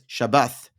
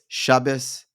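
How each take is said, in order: First: It is said ending with a th sound. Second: It is said ending with an s sound. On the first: "or Yemenite, which is Shabbath"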